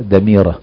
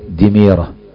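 First: The first vowel is a, the second is i. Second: The vowels differ from a then i. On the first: The speaker calls it right. "بفتح الدال وكسر الميم" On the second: The speaker calls it wrong. "وليس دميرة"

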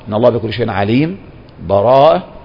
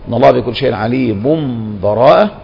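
First: A full stop with a breath before the last word. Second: The two words run together without any break. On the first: "الوقف ... بالنفس" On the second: "الوصل"

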